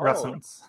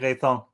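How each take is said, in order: First: The surname is said with an English pronunciation. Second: The surname is said with a French pronunciation. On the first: "or in English" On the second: "it's originally Retan"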